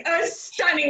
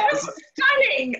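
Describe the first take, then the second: First: Said in the usual way. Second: Bursts out high and delighted; a gasp of real delight at the shirts. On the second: Real, not acted. Host delighted by her friend's embroidery, high excited exclaim.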